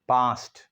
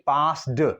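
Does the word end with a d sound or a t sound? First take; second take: t sound; d sound. First: The word ends with a t sound. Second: The word ends with a d sound. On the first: The speaker calls it right. "ईडी ये हमें sound देगा टी का" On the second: The speaker calls it wrong. "हम नहीं कह सकते पास्ड now, that is totally wrong"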